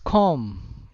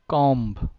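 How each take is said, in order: First: The final b is silent. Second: The final b is pronounced. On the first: The speaker calls it right. "Then it's comb" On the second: The speaker calls it wrong. "not comb"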